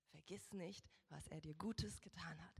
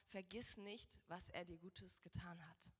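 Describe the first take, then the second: No difference in how they are said.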